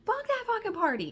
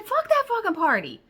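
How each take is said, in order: First: Much higher, squeaky swearing; high-pitched outburst. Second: High, loud swearing; high, loud swearing outburst; exasperated outburst. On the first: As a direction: squeal it, fed up. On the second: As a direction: blurt it out, fed up. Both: Retold or imitated. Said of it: "That's exactly what I said".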